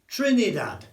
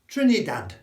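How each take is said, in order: The two takes are said the same way.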